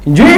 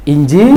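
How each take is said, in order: First: Curt INJI jumping sharply upward; wrong intonation. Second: Good polite intonation. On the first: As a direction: snap out INJI as an abrupt, impolite reply. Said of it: "tapi intonasinya nggak tepat". (INJI pendek, intonasi naik tajam kurang sopan) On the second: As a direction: say INJI politely and unhurried. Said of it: "itu kan intonasinya baik". (intonasi halus dan sopan pada INJI) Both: Shown as a demonstration.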